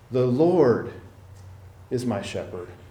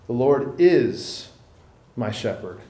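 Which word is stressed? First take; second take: lord; is. First: The stress falls on 'Lord'. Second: The stress falls on 'is'.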